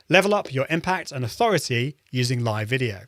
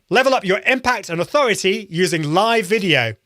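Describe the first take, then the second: First: It is said with low, conversational energy. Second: It is said with high, lively energy.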